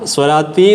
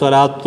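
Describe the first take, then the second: First: The word ends with an 'i' vowel. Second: The word ends with a 'u' vowel. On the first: The speaker calls it wrong. "സ്വലാത്തി എന്ന് പറയരുത്" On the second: The speaker calls it right. "സ്വലാത്തു എന്നാണ്, ലൊമ്മാണ് കേട്ടോ"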